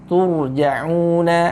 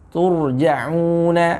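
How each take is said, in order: No difference in how they are said.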